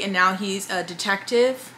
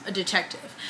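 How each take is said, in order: First: Said in the usual way. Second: Softer, hushed repeat of "a detective"; hushed aside. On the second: Shown as a demonstration. Vlogger repeating to her viewers, softer, a hushed "a detective". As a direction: drop to a hush on "a detective" as a wry aside.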